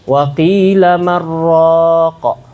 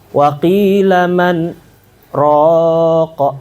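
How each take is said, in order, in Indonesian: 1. 'Man raqa' dibaca bersambung tanpa berhenti. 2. Ada berhenti singkat setelah 'man'.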